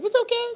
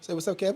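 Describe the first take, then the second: First: Much higher, squeaky imitation of a friend; high-pitched teasing impression of Kev; squeaky mock voice. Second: Said in the usual way. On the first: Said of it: "that's how you sound".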